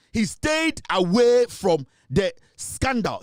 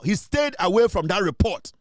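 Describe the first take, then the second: First: Each word laid down slowly, STAYED hit hardest; slow it right down and lean on "stayed"; deliberate, pointed accusation; slow emphatic stress. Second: Said in the usual way. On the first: Real, not acted.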